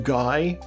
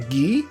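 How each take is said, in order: First: The name is pronounced the English way. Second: The name is pronounced the French way. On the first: The speaker calls it wrong. "as opposed to" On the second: The speaker calls it right. "I assume that's how it's pronounced ... It's a French name"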